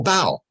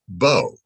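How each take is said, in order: First: "bow" rhyming with "cow"; pronounced like "cow". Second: "bow" rhyming with "go"; pronounced like "go". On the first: Teacher shows an ambiguous word's first reading, "bow" rhyming with "cow". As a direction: say "bow" with an ow sound, as in bowing down. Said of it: "two different pronunciations". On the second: Teacher shows the word's other reading, "bow" with a long o. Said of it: "it can also be pronounced". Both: Shown as a demonstration.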